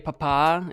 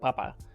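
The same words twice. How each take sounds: First: The stress is on the last syllable. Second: The stress is on the first syllable. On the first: It means dad. "If you say papa, it means dad" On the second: It means potato. "without an, any accent, it means potato"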